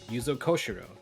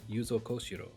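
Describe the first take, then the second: First: The name is said with English-style pronunciation. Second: The name is said with Japanese-style pronunciation. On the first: This is the habitual way learned before studying the language. "I would say uh" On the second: This is the more accurate way learned after studying the language. "if I learned it later, I might say something more like"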